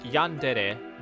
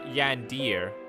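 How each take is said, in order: First: The word ends with two syllables, 'deh-reh'. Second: The word ends with one syllable, 'deer'. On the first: The speaker calls it right. "it's pronounced Yandere" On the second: The speaker calls it wrong. "not Yandir"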